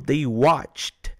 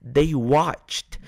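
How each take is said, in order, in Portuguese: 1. A terminação -ed é um som final sutil. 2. A terminação -ed é um som final sutil.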